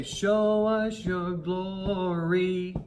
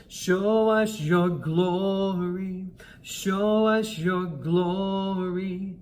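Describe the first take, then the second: First: Slow, leaning on the last word glory; wrong stress at the end. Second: Slow, with "glory" stressed clearly. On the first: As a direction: hit the end of "glory" the way not to sing it. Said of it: "Sometimes we have a tendency just to hit the end of that". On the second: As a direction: lean into the word "glory" as the right way. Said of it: "we wanna stress the word glory". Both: Shown as a demonstration.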